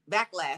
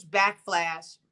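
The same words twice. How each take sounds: First: Said in the usual way. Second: BACKFLASH with a stray F before LASH; slip of the tongue. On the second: Real, not acted. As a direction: stumble into saying "backflash", ending in FLASH. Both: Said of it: "backlash, excuse me".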